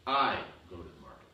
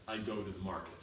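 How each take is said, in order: First: "I" hit hard and louder, rest falling; stress on I. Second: Said in the usual way. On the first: Shown as a demonstration. Teacher shows the class a stressed "I", punching "I". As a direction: punch the word "I" as if no one else goes. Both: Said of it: "Means I go, you don't go".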